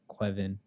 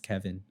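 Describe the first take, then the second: First: The name begins with a 'kwev' sound. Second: The name begins with a 'kev' sound. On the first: "soft W like Quevin" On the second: "there's no V in that anywhere, but it's Kevin"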